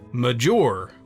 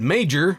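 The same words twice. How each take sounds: First: The name is said with a changed pronunciation. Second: The name is said with its standard pronunciation. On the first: This sounds like someone else's name. The speaker calls it wrong. "he would pronounce it Major" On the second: This is how the speaker's name is really said. The speaker calls it right. "He wouldn't pronounce it Major"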